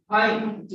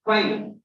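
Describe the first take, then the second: First: 'fine' with both lips touching at the start; two-lip F. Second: Lip-to-teeth F to start 'fine'; exact English F. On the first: Teacher mimicking the learner's mistake, two-lip F. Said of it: "by using two lips". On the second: Teacher giving exact pronunciation, English F. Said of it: "The exact pronunciation is fine". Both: Shown as a demonstration.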